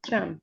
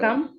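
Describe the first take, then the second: First: The word begins with a ch sound. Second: The word begins with a k sound. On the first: This is the everyday spoken dialect form. "स्पीकिंग में कम के बजाय पे हम लोग चम बोलते हैं" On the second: This is the standard classical form. "Quran में भी है, फुसहा में भी है"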